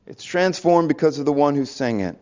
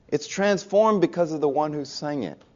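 First: Said in the usual way. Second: Softer, deliberate, "transformed" weighted; soft emphatic. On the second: Real, not acted. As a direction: drop the voice to land the point. Key line said softly.

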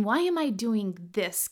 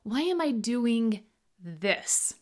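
First: Said in the usual way. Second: Slow build, "this" set apart at the end; stress on THIS. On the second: Shown as a demonstration. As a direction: pause slightly, then land on "this". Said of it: "First, let's go with this".

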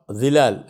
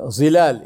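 First: "Zilal" opening on a voiced th-like sound; correct Arabic consonant. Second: First "Zilal" with a plain z; Urdu-style z. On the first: Teacher showing the correct Arabic word, th-like opening. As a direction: say "Zilal" with th as in this replacing z. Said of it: "instead of Zilal". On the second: Teacher showing Urdu speakers' mistaken word, plain z. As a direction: say "Zilal" starting on a buzzing z. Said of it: "Zilal instead of Zilal". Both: Shown as a demonstration.

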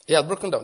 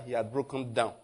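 First: Repeated louder with emphasis; louder second take; stress. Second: Said in the usual way. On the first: Shown as a demonstration. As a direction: hammer home He had broken down. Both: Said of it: "repeated for emphasis".

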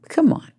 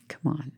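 First: Breathy whispered "Come on", pitched higher; exasperated whispered "Come on" to the audience. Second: Said in the usual way. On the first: Real, not acted. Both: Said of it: "repeated exasperated come on".

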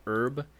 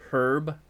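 First: Herb without the H, as "erb"; silent H. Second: Herb with a breathed H at the start; audible H. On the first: Friend quizzing on herb, said with a silent H. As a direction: drop the H in herb. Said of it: "a correct pronunciation of herb". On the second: Friend giving the other pronunciation, herb with audible H. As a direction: sound the H in herb. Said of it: "with a audible H". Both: Shown as a demonstration.

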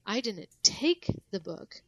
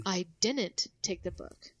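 First: Slow and louder, "take" punched; "take" stressed, as if the book went some other way. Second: Slow, "didn't" pushed up and out; stress on DIDN'T. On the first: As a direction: punch "take", then fall away on "the book". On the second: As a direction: hit "didn't" and let the sentence fall after it. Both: Shown as a demonstration. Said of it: "what you emphasize".

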